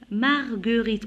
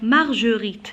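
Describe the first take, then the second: First: The G is said as a hard G sound. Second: The G is said as a soft zh sound. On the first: The speaker calls it right. "pour prononcer le G, G, j'ajoute toujours le U" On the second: The speaker calls it wrong. "si j'enlève par exemple le U, je dis quoi?"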